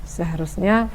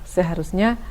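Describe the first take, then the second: The two takes are said the same way.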